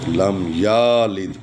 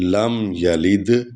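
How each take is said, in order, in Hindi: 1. yalid का पहला स्वर लंबा खींचा जाता है। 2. yalid का पहला स्वर छोटा रखा जाता है।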